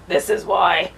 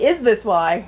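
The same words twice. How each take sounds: First: "This is why." said flat as a statement, weight on "is"; statement, stress on is. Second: "Is this why?" asked as a question, "Is" up front; question, stress on is. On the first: Reader showing her misreading, "This is why." as a statement. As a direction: state it, pressing "is". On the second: Reader correcting herself, asking "Is this why?" as a question. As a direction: ask it, leaning on "Is". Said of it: "Oh, sorry". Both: Shown as a demonstration.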